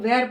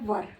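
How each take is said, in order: First: The word is said with the vowel of 'wear'. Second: The word is said with the vowel of 'fur'. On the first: The speaker calls it wrong. "इसको कुछ कुछ लोग वेयर पढ़ते हैं" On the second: The speaker calls it right. "इसको पढ़ेंगे वर"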